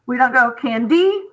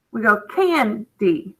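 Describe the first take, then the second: First: Candy stressed on the end, rising; wrong stress. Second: Candy stressed on the first syllable, falling; right stress. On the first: Teacher showing the wrong way to say candy, stressing the end. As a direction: say candy with the push on the last syllable. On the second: Teacher modelling the right stress on candy for the class. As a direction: say candy with the push on can. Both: Shown as a demonstration. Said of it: "accents mean we put more stress on that part".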